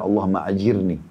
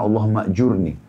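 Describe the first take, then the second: First: The second word is pronounced 'ajirni'. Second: The second word is pronounced 'jurni'. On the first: The speaker calls it wrong. "ada kekeliruan ucapan saya" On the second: The speaker calls it right. "jadi yang benar"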